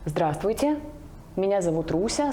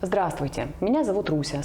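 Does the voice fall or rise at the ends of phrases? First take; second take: rise; fall. First: The voice rises at phrase ends, like questions. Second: The voice falls at phrase ends, like statements. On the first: The speaker sounds unsure of herself. The speaker calls it wrong. "вместо точки задаю вопрос" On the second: The speaker sounds confident. The speaker calls it right. "сейчас я ставлю точку"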